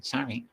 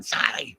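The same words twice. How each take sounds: First: Soft, high little sorry; imitating that lady. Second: High, strained mocking shout; mock yell. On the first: Lady heard again across the store, soft high imitation. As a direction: mimic her small distant apology. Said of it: "and then I hear her again". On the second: Yelling again from across the supermarket, high mocking yell. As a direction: yell it back in mockery. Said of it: "and then I'd yell again".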